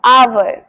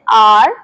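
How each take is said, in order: First: "आवर" said as AA-ver; two syllables in "आवर"; correct pronunciation. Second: "आर" for hour, one syllable; "आर" said like the letter R; common mispronunciation. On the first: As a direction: model hour as "आवर", with a v glide. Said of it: "सही तरीके से बोलते हैं आवर". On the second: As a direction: say hour as a single "aar", "आर". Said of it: "जिसे बहुत सारे लोग बोलते हैं आर". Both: Shown as a demonstration.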